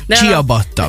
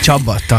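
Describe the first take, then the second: First: The word is pronounced in a Hungarianized way. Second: The word is pronounced in its original foreign way. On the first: The speaker calls it wrong. "Ciabatta, csabatta helyett" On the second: The speaker calls it right.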